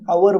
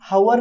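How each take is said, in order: First: The word begins directly with a vowel. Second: The word begins with an h sound. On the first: The speaker calls it right. "हम आवर बोलते हैं" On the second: The speaker calls it wrong. "हम हावर नहीं"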